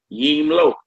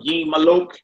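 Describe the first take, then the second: First: The word is said with two syllables. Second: The word is said with three syllables. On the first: The speaker calls it right. "Just say Yim Lok" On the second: The speaker calls it wrong. "You don't want to Yim Malok"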